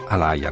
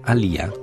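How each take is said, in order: First: The middle syllable is a 'lai' diphthong. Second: The middle syllable is a plain 'li' sound. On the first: This is how Americans say it. "gli americani dicono Alaya" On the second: This is the original pronunciation. "così si pronuncerebbe nelle sue lingue originali"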